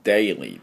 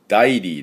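First: The first vowel is an 'ay' sound. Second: The first vowel is a plain 'ah' sound. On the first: The speaker calls it right. "daily です" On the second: The speaker calls it wrong. "だ、daily でありません"

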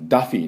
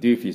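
First: The first syllable sounds like 'dah'. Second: The first syllable sounds like 'dyoo'. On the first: The speaker calls it right. "ダフィーね" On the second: The speaker calls it wrong. "私それ最初デューフィーかと思って"

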